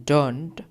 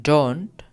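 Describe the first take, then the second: No difference in how they are said.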